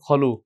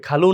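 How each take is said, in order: First: খলু with a rounded, throaty "kho"; correct Arabic vowel. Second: খালু with an open "aa" in the first syllable; wrong vowel. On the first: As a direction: say খলু with খ, not an open খা. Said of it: "খালু না খা-, খলু". (খা নয়, খ দিয়ে খলু) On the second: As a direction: say খালু as the everyday Bangla word, with খা. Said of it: "এটা কি হবে?". (আ-কার দিয়ে খালু) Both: Shown as a demonstration.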